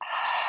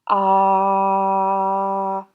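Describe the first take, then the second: First: It is a breathy flush of air. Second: It is voiced, with clear tone.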